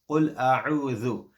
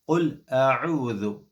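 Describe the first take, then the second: No difference in how they are said.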